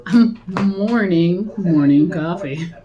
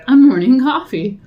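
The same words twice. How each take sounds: First: Mock mourning. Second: Said in the usual way. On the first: Real, not acted.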